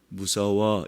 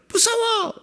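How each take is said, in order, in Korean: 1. 낮고 차분한 목소리로 말해요. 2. 높고 비명 지르는 목소리로 말해요. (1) "이게 무서운 거예요?" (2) "소리가 높아지잖아요"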